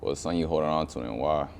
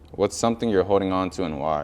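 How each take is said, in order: First: It is read in a more casual, nonchalant tone. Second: It is read in a less casual, earnest tone.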